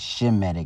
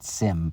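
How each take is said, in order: First: The word begins with a sh sound. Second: The word begins with an s sound. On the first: The speaker calls it right. "should properly said Shemitic" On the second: The speaker calls it wrong. "not Sim"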